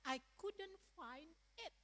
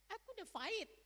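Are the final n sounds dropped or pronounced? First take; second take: pronounced; dropped. First: The final n sounds are pronounced. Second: The final n sounds are dropped. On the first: It is what the speaker actually meant. "ternyata dia mengatakan" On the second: It imitates a speaker whose language has no final n. "N itu gak ada pada dia"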